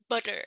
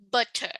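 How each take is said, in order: First: The word is said in an American accent. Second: The word is said in a British accent. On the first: "in American English, we say butter" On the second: "in British English, we say butter"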